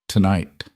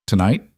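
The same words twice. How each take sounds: First: Said in the usual way. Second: A rising, questioning "Tonight?"; asking tonight. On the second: A narrator's reading. Vivian asks Adrian about the timing, rising. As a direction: lift "Tonight?" as a quick check.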